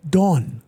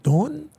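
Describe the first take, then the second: First: Said in the usual way. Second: High, rising disbelieving question; stunned echo of the name; surprised. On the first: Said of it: "My secretary runs in and she said". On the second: Retold or imitated. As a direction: repeat the name in shock.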